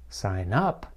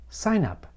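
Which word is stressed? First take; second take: up; sign. First: The stress falls on "up". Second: The stress falls on "sign". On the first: It is a verb: to register for something. "That's a phrasal verb" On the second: It is a noun: a registration. "How does the noun form sound?"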